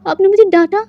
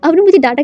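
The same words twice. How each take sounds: First: High, tearful whine rising at the end; a scolded boy starting to cry; crying complaint. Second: Tearful repeat falling at the end; crying complaint. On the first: Scolded boy whimpers to Wang Ji, tearful and high. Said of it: "रोते हुए कहता है". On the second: Boy repeats his complaint to Wang Ji, tearful and falling. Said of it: "कहकर ना वो literally रो रहा था". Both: A narrator's reading.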